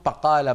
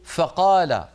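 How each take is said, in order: First: The first consonant is a blend of b and f. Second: The first consonant is a clear f sound. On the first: The speaker calls it wrong. "بقال حرف ضائع، لا هو فاء ولا هو باء" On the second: The speaker calls it right. "وينطق الفاء القرآنية فاء فيقول"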